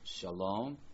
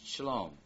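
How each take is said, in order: First: The first vowel is a full a sound. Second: The first vowel is a reduced short sound. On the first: This is the noun standing on its own. "Or comments or seri changed to a vocal savah and an open unaccented syllable" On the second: This is the noun bound to a following noun. "changed to a vocal savah and an open unaccented syllable"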